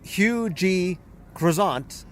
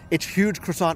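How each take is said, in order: First: The name is said slowly, letter by letter. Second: The name is said quickly, run together.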